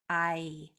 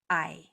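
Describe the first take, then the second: First: The vowel is drawn out slowly. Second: The vowel is said quickly.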